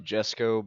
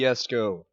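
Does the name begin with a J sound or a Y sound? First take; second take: J sound; Y sound. First: The name begins with a j sound. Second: The name begins with a y sound. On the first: This is how other people say it. "To other people, they would say Jesco" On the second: This is how the makers say it. "I like pronouncing things the way that the people made it would pronounce it"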